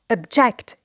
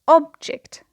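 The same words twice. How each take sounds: First: The stress is on the second syllable. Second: The stress is on the first syllable. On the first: It is used as a verb. "So here the stress is on the second syllable because it is a verb" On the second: It is used as a noun. "the stress is on the first syllable"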